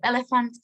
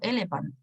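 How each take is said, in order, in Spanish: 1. La ph se pronuncia como un sonido f. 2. La ph se pronuncia como un sonido p. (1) "al pronunciarlo sí suena parecido" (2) "no hubiese sabido que la P H se pronunciaba como F y hubiera dicho elephant"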